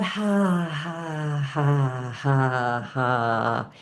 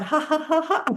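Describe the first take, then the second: First: Long, drawn-out ha's stepping down in pitch; breathed-out ha. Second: Quick high ha's rolling into long laughter; laughing it out. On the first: Teacher warms up the diaphragm, long exhaled ha's. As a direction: let each "ha" sink as the breath empties. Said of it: "and as you breathe out". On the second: Teacher laughs out the breath for class, high pealing laugh. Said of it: "you're just gonna laugh it out". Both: Shown as a demonstration.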